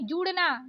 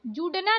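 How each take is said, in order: First: जुड़ना with flapped ड़; correct flapped ड़. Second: जुड़ना with hard ड stop; wrong hard D. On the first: Teacher correcting learners, flapped जुड़ना. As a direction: flick the ड़ in जुड़ना. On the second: Teacher showing learners the mistake, hard-D जुड़ना. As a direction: say जुड़ना with D, no flap. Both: Shown as a demonstration. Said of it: "नहीं".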